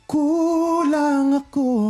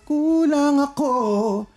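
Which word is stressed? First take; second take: kulang; ako. First: The word kulang is louder and stressed. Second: The word ako is louder and stressed. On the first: The speaker calls it right. "mas mas okay na bigyan mo ng diin yung word na kulang" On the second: The speaker calls it wrong. "laging lumalakas yung part na ako"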